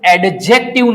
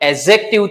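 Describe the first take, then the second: First: The d sound is pronounced before the j. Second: The d sound is silent before the j. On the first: The speaker calls it wrong. "આનું pronunciation એડજેક્ટિવ ના થાય" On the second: The speaker calls it right. "D કેવો થઈ જાય silent"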